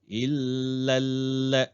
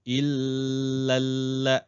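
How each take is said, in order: No difference in how they are said.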